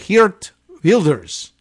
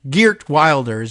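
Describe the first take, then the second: First: The name is pronounced with Dutch sounds. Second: The name is pronounced with English sounds. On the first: "I think they would say" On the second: "in our anglicized version"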